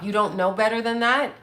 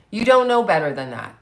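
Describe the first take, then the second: First: "You don't know better than that?" rising at the end; disbelieving rhetorical question, ending up; incredulous question. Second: "You don't know better than that." falling at the end; emphatic statement with stress on "don't", ending down; firm statement. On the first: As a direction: ask it as a challenge, voice lifting on "that". Question repeated as a statement. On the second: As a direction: state it as a verdict, weight on "don't". Same words turned into a statement. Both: Real, not acted.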